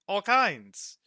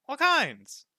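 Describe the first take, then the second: First: Higher and louder, proud; excited boast. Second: Much higher and louder, ecstatic; squealing boast. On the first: Roka boasts of the stock, excited and high. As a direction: sell it with delight. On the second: Roka ends his gem list in a high ecstatic squeal. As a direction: hit the top of the voice with glee. Roka's boast repeated, peaking. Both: Acted.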